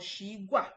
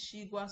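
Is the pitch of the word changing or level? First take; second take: changing; level. First: The pitch moves instead of staying level. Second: The pitch stays level and straight. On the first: The speaker calls it wrong. "not shigua or shigua" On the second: The speaker calls it right. "It's straight, it's a straight tone"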